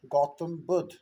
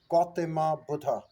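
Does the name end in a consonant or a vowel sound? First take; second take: consonant; vowel. First: Both words end in consonant sounds. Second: Both words end with an added 'a' vowel. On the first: This is the original native form. The speaker calls it right. "our name is uh" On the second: This is how the British said it. The speaker calls it wrong. "They provide it as"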